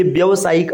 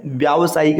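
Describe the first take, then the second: First: व्यावसायिक said "vyavasaayik", short first a; wrong short vowel. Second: व्यावसायिक said "vyaavasaayik", long first aa; correct long vowel. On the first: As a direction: keep the start of व्यावसायिक short, "vya". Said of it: "अशुद्ध होता है". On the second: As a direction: lengthen the start of व्यावसायिक to "vyaa". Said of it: "इसको कहा जाता है". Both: Shown as a demonstration.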